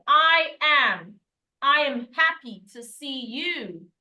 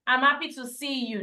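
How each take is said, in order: First: "I am" as two separate, stressed words, drawn out; uncontracted I am. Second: "I'm" run together as one quick syllable; contracted I'm. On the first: Teacher modelling for learners, "I am" slow and uncontracted. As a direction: stretch out "I am", slow and emphatic. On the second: Teacher quoting the wrong opening, "I'm" contracted. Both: Shown as a demonstration. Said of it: "There's a contraction there".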